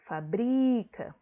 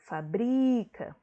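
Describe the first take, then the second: First: The stress is on the second syllable. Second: The stress is on the second syllable.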